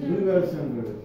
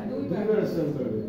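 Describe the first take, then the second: No difference in how they are said.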